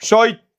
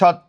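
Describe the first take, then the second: First: An extra 'i' vowel comes before the cluster. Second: No extra vowel comes before the cluster. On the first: "যুক্ত বর্ণের আগে রস্বইকার আসলে আমরা তাকে কি বলবো, অপিনিহিতি" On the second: "সত্য থেকে"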